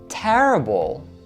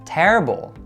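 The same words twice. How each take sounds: First: The stressed syllable is stretched out, slower. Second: The stressed syllable has normal length.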